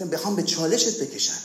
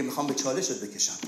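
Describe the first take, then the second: First: Said in the usual way. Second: Quiet taunt. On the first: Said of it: "به تو صحبت". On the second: Retold or imitated. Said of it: "اون مشکل تو میگه".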